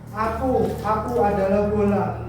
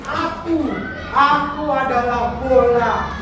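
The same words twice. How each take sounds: First: It is read flatly, without feeling. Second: It is read with lively, heartfelt expression. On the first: The speaker calls it wrong. "Bagus nggak? Tidak kan?" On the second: The speaker calls it right. "Kalau ekspresinya lebih bagus"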